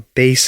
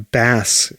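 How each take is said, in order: First: The vowel rhymes with face. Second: The vowel rhymes with mass. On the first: It names a musical instrument. "a bass is a musical instrument" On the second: It names a fish. "a bass is a fish"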